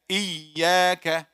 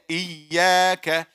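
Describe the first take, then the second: First: The middle consonant sounds like a y. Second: The same.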